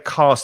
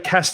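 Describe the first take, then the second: First: The vowel is long. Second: The vowel is short. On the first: This is how the presenter himself says it. "I say cast... My vowel sounds a little longer" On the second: This is how a northern speaker says it. "You say cast... Lynn's is is a bit shorter"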